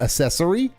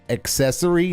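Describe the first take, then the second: First: The word begins with a soft 'ass' sound. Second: The word begins with a hard 'ak' sound. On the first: The speaker calls it wrong. "not accessory" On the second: The speaker calls it right. "it's pronounced accessory"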